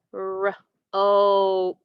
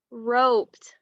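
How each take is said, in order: First: ROPED split as rrr... ohp-t; sounded out. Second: Said in the usual way. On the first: Shown as a demonstration. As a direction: stretch ROPED, pausing after the r. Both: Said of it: "What's the new word".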